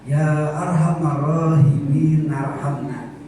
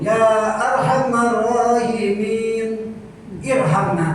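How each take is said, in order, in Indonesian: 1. Kata terakhir nyambung tanpa henti. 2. Ada henti sebelum kata terakhir. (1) "kalau mau wasol harus narhamna" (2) "Bapak berhenti dulu"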